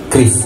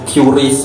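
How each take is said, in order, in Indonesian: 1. Tidak ada vokal di antara k dan r. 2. Vokal 'u' berada di antara k dan r. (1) "yang benar adalah kris" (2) "biar kelihatan kayak lebih Inggris gitu kan. Itu sebenarnya salah"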